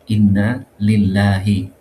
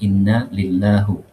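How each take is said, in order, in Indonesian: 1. Kata terakhir berakhir dengan vokal 'i'. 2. Kata terakhir berakhir dengan vokal 'u'.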